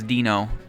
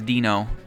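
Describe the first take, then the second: First: The name is read with English vowel letters. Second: The same.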